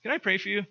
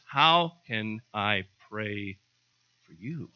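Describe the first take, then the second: First: Asked high. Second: Stressed how, drawn out slowly; slow emphatic how can I pray for you. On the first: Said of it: "if you ask". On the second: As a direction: spell the question out slowly. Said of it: "The question is". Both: Shown as a demonstration.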